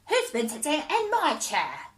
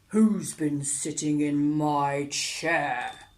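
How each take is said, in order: First: It is said in a high squeak. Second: It is said in a deep growl.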